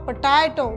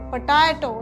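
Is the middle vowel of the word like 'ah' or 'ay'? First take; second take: ah; ah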